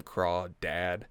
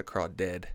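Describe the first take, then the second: First: Crawdad with a full DAD at the end; mocked pronunciation. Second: Crawdad ending like the word dead; corrected pronunciation. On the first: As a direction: say crawdad as craw-DAD, not craw-ded. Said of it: "calls him crawdad. That's so dumb". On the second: Retold or imitated. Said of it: "'Cause it's fucking dead".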